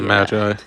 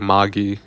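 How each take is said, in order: First: It is pronounced the English way. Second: It is pronounced the Japanese way. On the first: "it's how the Eng- us English would say it" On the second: "but in Japanese they say Magi"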